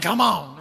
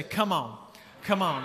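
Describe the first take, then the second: First: A low throaty growl on "Come on", louder; little guttural voice. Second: Said in the usual way. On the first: Shown as a demonstration. Pastor shows the congregation how to call back, guttural. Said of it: "Like a little guttural voice". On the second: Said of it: "you're gonna say".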